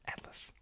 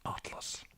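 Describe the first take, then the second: First: "Atlas" with A as in cat, softly; short-A pronunciation. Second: "Atlas" with a broad AH first vowel; alternative pronunciation. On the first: Streamer trying it out for viewers, "Atlas" as AT-lus. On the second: Streamer trying it out for viewers, "Atlas" as AHT-lus. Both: Shown as a demonstration. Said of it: "say how you say Atlas".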